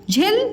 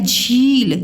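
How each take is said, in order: First: The vowel is said short and quick. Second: The vowel is said long and drawn out. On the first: The speaker calls it wrong. "झिल जल्दी बोल दिया, कम समय लगा उच्चारण में" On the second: The speaker calls it right. "यहाँ पे झील ज़्यादा टाइम लगा"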